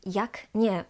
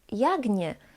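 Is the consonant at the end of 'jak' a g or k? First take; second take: k; g. First: The end of jak is a voiceless k. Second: The end of jak is a voiced g. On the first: This is the Warsaw way of pronouncing it. "I pronounce this as jak nie, with k pronounced as k, voiceless" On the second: This is the Krakow-Poznań way of pronouncing it. "they change the k to its voiced equivalent g"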